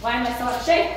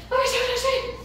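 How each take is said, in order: First: Out of breath. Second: High, strained and winded; breathless after running with the dog; gasping out of breath. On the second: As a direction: squeeze it out between gasps. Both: Real, not acted. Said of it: "I can't even breathe".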